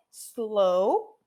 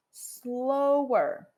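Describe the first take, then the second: First: Slow with a rising tune; Slow said rising, held open; base form slow. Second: Slower with a falling tune; comparative slower. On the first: Teacher models base then comparative: Slow rising. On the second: Teacher models base then comparative: slower falling. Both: Shown as a demonstration. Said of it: "Se eu quiser falar mais devagar".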